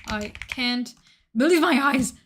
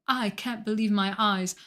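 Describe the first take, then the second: First: Louder and higher, hammed-up disbelief; exaggerated gasp of wonder; mock amazement. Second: Imitating a deadpan monotone read; mock monotone awe. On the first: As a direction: sell it like a jaw-dropping moment. Hamming up the voice line. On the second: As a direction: say it with no feeling at all, one level tone. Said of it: "but in the most monotone voice".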